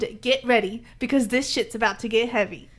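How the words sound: It is said with a dramatic pause inside. The speaker calls it right. "you gotta pause"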